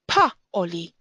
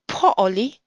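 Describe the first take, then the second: First: The first vowel sounds like 'a'. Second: The first vowel sounds like 'o'. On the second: It follows modern Hebrew grammar. "according to modern grammar, you would read"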